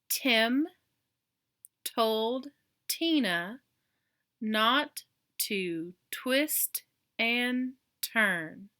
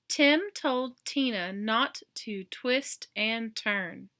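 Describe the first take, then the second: First: The sentence is read at a slower pace. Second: The sentence is read at a fast pace.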